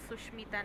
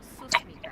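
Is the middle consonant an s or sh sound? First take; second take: sh; s. First: The middle consonant is a sh sound. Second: The middle consonant is a hissing s sound. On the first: The speaker calls it wrong. "माझं नाव सुष्मिता नाहीये" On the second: The speaker calls it right. "सुस्मिता आहे"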